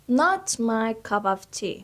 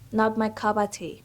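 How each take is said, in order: First: The phrase is said slowly and carefully. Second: The phrase is said quickly and smoothly.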